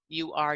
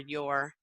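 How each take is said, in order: First: It is said as two full words. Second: It is said as one contracted syllable.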